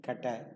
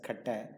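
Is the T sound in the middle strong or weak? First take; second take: weak; weak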